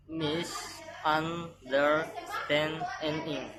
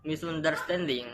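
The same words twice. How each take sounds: First: "misunderstanding" very slowly as mis-un-der-stand-ing; broken into syllables. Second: Said in the usual way. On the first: Shown as a demonstration. Teacher showing five syllables, "misunderstanding" one syllable at a time. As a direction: stretch "misunderstanding" out, each syllable on its own. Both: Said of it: "The next is five syllables".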